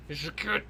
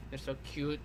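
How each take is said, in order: First: Said in the usual way. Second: Hushed, softer fond "They're so cute."; soft fond murmur over a drawing; soft cooing. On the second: Real, not acted. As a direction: coo over the picture softly.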